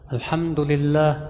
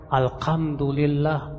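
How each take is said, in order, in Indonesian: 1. Konsonan setelah 'al' adalah h berdesah. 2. Konsonan setelah 'al' adalah k. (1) "harusnya alhamdulillah" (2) "dia baca alhamdulillah pakai kaf"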